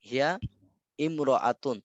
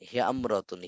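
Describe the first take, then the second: First: The initial vowel of imra'atun is pronounced separately. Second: The initial vowel is dropped and the words join. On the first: The speaker calls it wrong. "এমন হওয়ার কথা ছিল না" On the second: The speaker calls it right. "কিন্তু এটা হবে হিয়ামরাতুন"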